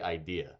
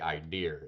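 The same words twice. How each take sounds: First: It is said in a general American accent. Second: It is said in a Tidewater Virginia accent. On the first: "they don't say idea" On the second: "they say idea"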